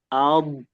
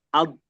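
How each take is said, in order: First: The final consonant is drawn out, flowing. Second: The final consonant is cut short. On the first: The speaker calls it right. "tapi alb" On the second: The speaker calls it wrong. "Jadi nggak alb gitu doang"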